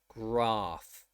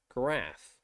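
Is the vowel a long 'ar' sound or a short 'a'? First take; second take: long; short. First: The vowel is a long 'ar' sound. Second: The vowel is a short 'a' sound. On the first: "not always going to be pronounced graph" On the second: "It will often be pronounced graph, like graphic"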